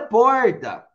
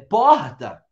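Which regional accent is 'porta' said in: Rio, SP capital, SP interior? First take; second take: SP interior; Rio. First: It is said in an inland São Paulo accent. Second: It is said in a Rio de Janeiro accent. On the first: "Em São Paulo é porta, no interior" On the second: "lá no Rio de Janeiro, a Caroline pode falar"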